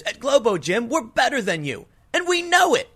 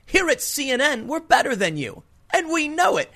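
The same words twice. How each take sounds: First: Smug gym owner, pitch leaping much higher on know; mock smug superiority, rising high at the end; arrogant gym guy. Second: Mock smug anchor, much higher on here and know; lightly voiced arrogant newsman gloating; imitating a gloating TV host, pitch jumping up. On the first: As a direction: brag it like a cocky gym boss. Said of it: "playing the super arrogant exercise guy". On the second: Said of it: "Don Lemon may as well have said".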